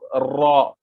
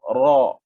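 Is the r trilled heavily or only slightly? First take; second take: heavily; slightly. First: The r is trilled many times. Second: The r has only a slight trill. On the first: The speaker calls it wrong. "Tidak boleh banyak ra. Kita sebut ra. Salah" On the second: The speaker calls it right. "Jadi sedikit sahaja"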